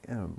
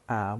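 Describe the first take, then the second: First: The word is said with a weak, reduced vowel. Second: The word is said with a strong, full vowel. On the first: The speaker calls it right. "we say" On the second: The speaker calls it wrong. "we don't say"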